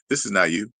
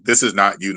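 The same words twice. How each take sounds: First: It is said in an ordinary, natural speaking voice. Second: It is said in a flat, mechanical robot voice. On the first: The speaker calls it right. "It would just be normal" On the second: The speaker calls it wrong. "not like a robot voice"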